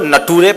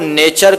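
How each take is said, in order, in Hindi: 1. यह शब्द na-too-ray की तरह बोला जाता है। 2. यह शब्द nay-cher की तरह बोला जाता है। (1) "वो नेचर को नटूरे पढ़ता था" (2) "शुद्ध उच्चारण"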